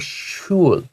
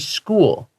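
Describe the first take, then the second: First: The word begins with an sh sound. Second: The word begins with an sk sound. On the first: The speaker calls it wrong. "they don't say schul" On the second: The speaker calls it right. "But they still say school"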